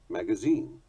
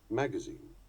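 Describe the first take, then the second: First: It uses the British stress pattern. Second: It uses the American stress pattern. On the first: "Those are the more usual accents in British English" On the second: "That is how they are said in America"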